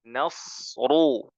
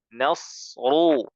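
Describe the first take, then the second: The two takes are said the same way.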